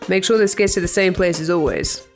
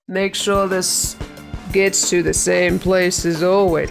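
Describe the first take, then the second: First: It is spoken at an ordinary pace. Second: It is spoken slowly, drawn out.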